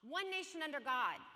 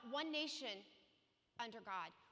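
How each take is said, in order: First: It flows with no pause after nation. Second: There is a pause after nation.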